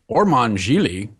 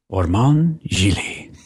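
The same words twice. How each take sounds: First: The name is said in a plain, ordinary way. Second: The name is said in a cool, stylized way.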